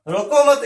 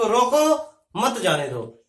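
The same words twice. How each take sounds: First: "रोको मत" run together as one phrase, high and loud; no break between रोको and मत, break only after मत; grouped as "don't stop". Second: "रोको", a clear break, then "मत जाने दो" together; slow, split after रोको so मत joins जाने दो; pause after रोको. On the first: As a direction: punch out "रोको मत" as one firm unit. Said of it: "यानी कि इसको मत रोको". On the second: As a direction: stop on रोको, then deliver "मत जाने दो" as one phrase. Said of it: "इसका अर्थ ये भी हो सकता है". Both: Shown as a demonstration.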